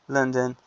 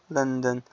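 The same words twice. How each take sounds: No difference in how they are said.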